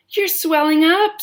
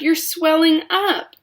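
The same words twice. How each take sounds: First: High loud scream; screamed again. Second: High, loud, slow scream. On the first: Mother screams again, high and loud. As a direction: shriek it once more. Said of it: "screamed Missus Beauregard again". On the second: Mother screams as Violet swells, high and loud. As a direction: cry it out in horror. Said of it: "screamed Missus Beauregard". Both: A narrator's reading.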